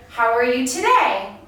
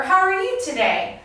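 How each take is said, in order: First: "How are you today" with the pitch peak saved for "today"; level start, lift on "today", then fall; varied intonation. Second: "How are you today" pitched high from the start, falling at the end; higher, livelier tune on "How are you today"; varied intonation. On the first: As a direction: ask "How are you today", leaning on the last word. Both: Shown as a demonstration. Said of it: "different ways that my voice goes up and down".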